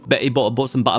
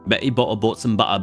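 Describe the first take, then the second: First: It is said at a faster pace. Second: It is said at a slower pace.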